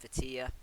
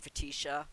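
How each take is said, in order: First: The name is said as Fa-ti-a. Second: The name is said as Fa-ti-sha. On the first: The speaker calls it right. "I found out her name is Fatia" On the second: The speaker calls it wrong. "I've been mispronouncing her name. I've been calling her Fatisha"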